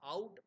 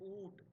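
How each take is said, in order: First: The vowel sounds like 'ow'. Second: The vowel sounds like 'oo'. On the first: This is the modern pronunciation. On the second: This is the older pronunciation.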